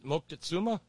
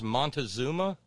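First: A k sound comes before the t. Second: An n sound comes before the t. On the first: The speaker calls it right. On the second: The speaker calls it wrong. "We mispronounce his name as Montezuma"

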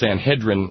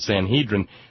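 First: The word rhymes with Excedrin. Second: The word does not rhyme with Excedrin. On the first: This is the corrected pronunciation. The speaker calls it right. "like rhymes with Excedrin" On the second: This is how preachers from the pulpit said it. The speaker calls it wrong. "every minister I ever heard opining from the pulpit said Sanhedrin"

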